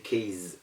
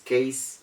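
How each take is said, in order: First: The middle consonant is a buzzing Z sound. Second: The middle consonant is a hissing S sound. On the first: The speaker calls it wrong. "we still do not give the Z sound. We don't say case" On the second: The speaker calls it right. "It is case"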